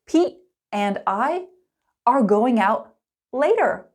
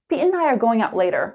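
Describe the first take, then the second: First: It is spoken slowly with every word clear. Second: It is spoken fast with 'and' reduced to n. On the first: "Let's start slow and clear" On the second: "fast and natural"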